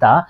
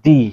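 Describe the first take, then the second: First: The word ends with a short 'uh' vowel. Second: The word ends with a long 'ee' vowel. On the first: The next word starts with a consonant sound. "Consonant সাউন্ডের আগে দা, এটাকে আমরা বলি দা" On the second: The next word starts with a vowel sound. "তখন এটাকে বলি দি"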